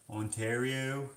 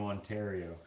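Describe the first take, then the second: First: Put-on "Ontario" stretched slowly in a thick Canadian accent; grandfather's Ontario pronunciation. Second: Said in the usual way. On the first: Mimicking how grandfather says it, drawn-out Canadian "Ontario". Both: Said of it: "That's how he says Ontario".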